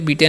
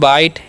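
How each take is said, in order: First: The vowel sounds like 'ee', with a final 'e'. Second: The vowel sounds like 'eye', with no final vowel. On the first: The speaker calls it wrong. "इसे बीटे नहीं पढ़ना" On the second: The speaker calls it right. "तरफ से पढ़ते हैं बाइट"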